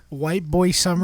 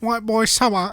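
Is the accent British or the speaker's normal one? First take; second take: normal; British. First: It is said in his normal accent. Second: It is said in a British accent.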